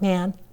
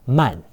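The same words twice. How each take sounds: First: The vowel is a flatter, non-open a sound. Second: The vowel is an open ah sound. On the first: The speaker calls it wrong. "Not man" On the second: The speaker calls it right. "but man"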